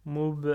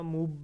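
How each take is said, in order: First: "Moub" with the B let out on a puff; released final B. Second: "moub" with lips shut on the B, unreleased; blocked final B. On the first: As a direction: open up after the final B of "Moub", louder. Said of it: "on laisse sortir le". (b final relâché avec le souffle dans « Moub ») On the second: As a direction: stop dead on the B of "moub". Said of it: "et on bloque". (b final bloqué, sans souffle, dans « moub ») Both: Shown as a demonstration.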